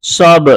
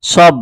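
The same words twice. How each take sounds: First: সব with the final ব released in a short, sharp echo; qalqalah bounce. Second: সব said smooth, the ব closed without any bounce. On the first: Teacher shows the right way with a bounce. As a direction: knock the ব out with a small push. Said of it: "বার মধ্যে কলকলার উচ্চারণ করতে হবে". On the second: Teacher shows the wrong way, no bounce. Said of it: "যদি বার মধ্যে আমরা ধাক্কা দিয়ে ছাড়া পড়ি তাহলে কিভাবে". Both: Shown as a demonstration.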